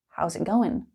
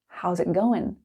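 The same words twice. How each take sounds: First: 'How is' is contracted and the g is dropped. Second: The same.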